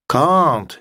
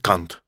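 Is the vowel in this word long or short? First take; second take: long; short. First: The vowel is long and drawn out. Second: The vowel is short. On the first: It means cannot. The speaker calls it right. "нужно тянуть can't" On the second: It sounds like a vulgar word. The speaker calls it wrong. "что такое can't с коротким А"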